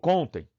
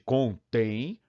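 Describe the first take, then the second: First: The stress is on the first syllable. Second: The stress is on the last syllable. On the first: "A tônica natural de contem é com" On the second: "acento E para deslocar a tônica"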